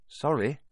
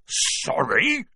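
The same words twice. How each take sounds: First: Put-on slightly higher, hurried boy's apology; quick apology. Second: Higher, rising bark of disbelief. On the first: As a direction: apologise in a hurry. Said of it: "Harry said quickly". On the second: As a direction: throw the word back as an indignant bark. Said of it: "barked Hagrid". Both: A narrator's reading.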